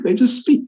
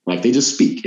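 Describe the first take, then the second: First: High squeak. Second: Said in the usual way. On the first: Shown as a demonstration.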